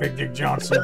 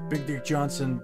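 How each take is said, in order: First: It is said in a put-on accent. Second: It is said plainly in his normal voice.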